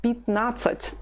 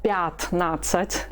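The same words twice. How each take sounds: First: Пятнадцать higher, starting "pit", stress on "nat"; reduced ya. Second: Пятнадцать slowly, with full "pyat" at the start; unreduced ya. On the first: Teacher corrects fifteen, пятнадцать with first vowel reduced to "i". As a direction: weaken "pyat" to "pit" in пятнадцать. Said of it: "when it's weak, we say it like this". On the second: Teacher shows what not to say, пятнадцать with full "pyat". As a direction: keep the open "ya" in пятнадцать. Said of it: "Instead of". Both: Shown as a demonstration.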